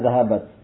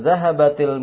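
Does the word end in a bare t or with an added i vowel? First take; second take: bare t; added i. First: The word ends in a bare t sound. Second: The final t links forward with an i vowel. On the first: This is the basic form of the word. "Asalnya zahabat" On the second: This is how it is read before a word starting with al-. "Maka dibaca dengan zahabatil mudarrisatu"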